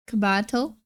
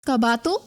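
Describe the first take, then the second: First: Cabato with an American flat a, kuh-BAT-oh; anglicized Cabato, aspirated k; American accent. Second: Cabato with open a's, kah-BAH-toh, unaspirated k; Filipino pronunciation. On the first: Retold or imitated. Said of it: "their family names in such a American accent". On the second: Shown as a demonstration. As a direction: Cabato in Tagalog style, rising. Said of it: "In Filipino, you say".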